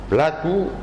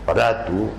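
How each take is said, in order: First: The second consonant is an L sound. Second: The second consonant is an R sound. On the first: This is how young people now say it. The speaker calls it wrong. "la dicen ya como en castellano" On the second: This is the traditional local pronunciation. The speaker calls it right. "generalmente se escribe en todas las palabras con R"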